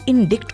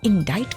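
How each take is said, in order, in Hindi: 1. इसमें छोटा 'i' है और यह 'kt' पर खत्म होता है। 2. इसमें 'eye' स्वर है और यह 't' पर खत्म होता है। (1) "इंडिक्ट को इंडाइट क्यों बोल रहे हैं" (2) "उसका प्रोनाउंसिएशन इंडाइट है"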